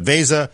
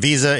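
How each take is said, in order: First: The word sounds like 'Vesa', with an 'eh' vowel. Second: The word sounds like 'Visa', with an 'ee' vowel. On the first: The speaker calls it right. "for the folks at Vase" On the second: The speaker calls it wrong. "If you're pronouncing it Visa, it is not Visa"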